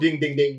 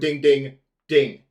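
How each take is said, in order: First: The three dings come in even, unbroken rhythm. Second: The dings have an exaggerated break between them. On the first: The speaker calls it wrong. "it's not like you go ding ding ding" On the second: The speaker calls it right. "Even though that break is, I made it exaggerated"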